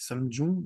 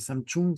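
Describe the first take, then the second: First: The second syllable starts with a 'j' sound. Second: The second syllable starts with a 'ch' sound. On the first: The speaker calls it right. "c'est Samjung" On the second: The speaker calls it wrong. "c'est pas Samchung"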